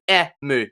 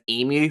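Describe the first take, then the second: First: The name is pronounced the Japanese way. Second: The name is pronounced the Australian English way. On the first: The speaker calls it right. "it's Emu because that's the Japanese" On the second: The speaker calls it wrong. "because I'm Australian, I pronounced his name as Emu"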